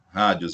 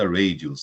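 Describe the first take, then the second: First: The word is said with Portuguese sounds. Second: The word is said with English sounds.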